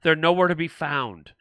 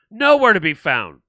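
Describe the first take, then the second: First: Said in the usual way. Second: "Nowhere to be found" repeated louder, NOWHERE leaned on; driving the point home, louder; emphatic repeat. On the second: Shown as a demonstration. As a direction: hammer the repeat, NOWHERE hit hard.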